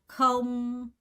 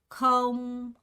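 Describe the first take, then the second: Both takes have the same delivery.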